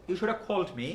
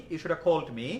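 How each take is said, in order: Both takes have the same delivery.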